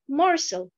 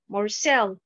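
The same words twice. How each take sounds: First: The stress is on the first syllable. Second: The stress is on the second syllable. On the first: The speaker calls it right. "la bonne prononciation" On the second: The speaker calls it wrong. "la mauvaise prononciation"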